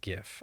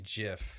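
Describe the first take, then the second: First: The word begins with a hard G sound. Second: The word begins with a soft J sound. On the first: The speaker calls it right. "It's GIF" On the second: The speaker calls it wrong. "If you say JIF, you're wrong"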